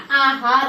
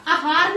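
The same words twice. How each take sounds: First: "आहार" said aa-haar; corrected long vowel. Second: "आहार" said a-haar; wrong short vowel. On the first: Teacher corrects students, "आहार" with long opening aa. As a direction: stretch the first aa of "आहार". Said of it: "आहार होता है". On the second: Teacher shows the mistake, "आहार" as short a-haar. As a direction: say "आहार" with a quick first a. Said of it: "नहीं होता". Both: Shown as a demonstration.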